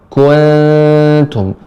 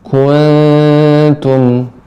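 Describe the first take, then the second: Both takes have the same delivery.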